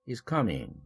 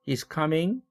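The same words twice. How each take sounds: First: The pitch falls at the end. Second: The pitch rises at the end. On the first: It is a statement. "내리죠. 하강 말미연접이에요" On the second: It is a question. "이렇게 올렸죠. 의문문이므로 상승 말미연접이고요"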